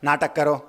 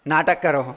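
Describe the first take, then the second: The two takes are said the same way.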